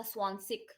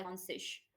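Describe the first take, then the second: First: "स्वानसिक" closing on a hard k; "स्वानसिक" with final k, no sh; hard -ik ending. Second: "स्वानसिश" closing on a soft sh; "स्वानसिश" with final sh, no k; soft -ish ending. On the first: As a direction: end "स्वानसिक" in -sik. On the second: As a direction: end "स्वानसिश" in -sish. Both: Shown as a demonstration. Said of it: "स्वानसिक या स्वानसिश".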